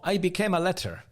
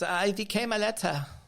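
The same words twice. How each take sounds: First: It is said without a German accent. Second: It is said with a German accent.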